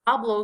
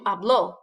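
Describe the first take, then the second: First: The stress is on the first syllable. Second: The stress is on the last syllable. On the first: "stress on the A" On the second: "stress on the O"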